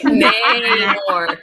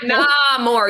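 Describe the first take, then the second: First: The first syllable sounds like 'nay'. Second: The first syllable sounds like 'nah'. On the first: The speaker calls it right. "Namor, not nah more" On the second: The speaker calls it wrong. "It's not nah"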